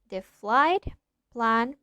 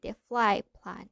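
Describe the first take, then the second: First: The t in flight is clearly pronounced. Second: The t in flight blends into the p. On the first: "instead of" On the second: "We say"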